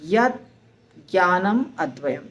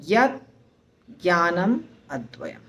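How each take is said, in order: No difference in how they are said.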